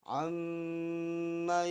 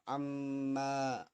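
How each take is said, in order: First: The final vowel is kept short. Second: The final vowel is drawn out long. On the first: The speaker calls it right. "Manya harus dibaca pendek" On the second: The speaker calls it wrong. "nggak boleh dibaca panjang, nggak boleh dibaca amma"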